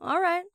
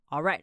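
First: It sounds reluctant and grudging. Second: It sounds flat and neutral. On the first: The speaker doesn't really want to help but agrees. "但是你不是很想帮他做，可是你又觉得他是因为觉得我有这个才能来找我的，好像不做一下不行" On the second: The speaker simply agrees to do it. "如果你不要这么情绪化，如果你是一个很平淡的人"

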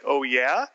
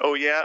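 First: It ends rising, like a question. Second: It ends falling, as a forceful confirmation.

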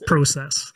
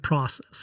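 First: It is said with a Canadian pronunciation. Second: It is said with an American pronunciation.

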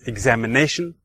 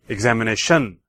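First: The stress falls on the fourth syllable, 'na'. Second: The stress falls on the fifth syllable, 'tion'. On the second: "And fifth"

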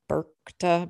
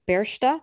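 First: The middle consonant is a k sound. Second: The middle consonant is an s sound. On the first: The speaker calls it wrong. "or some people call her Berkta" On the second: The speaker calls it right. "but it's actually pronounced Bersta"

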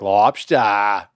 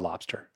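First: It is said in a put-on Maine accent. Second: It is said in a plain, ordinary accent. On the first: "he said it with a phony, like, Maine accent" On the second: "you can just call it lobster"

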